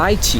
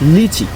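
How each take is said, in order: First: The first syllable sounds like 'lie'. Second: The first syllable sounds like 'lee'. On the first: "correct pronunciation হবে লাইচি" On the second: "লিচুর ইংরেজি হচ্ছে লিচি"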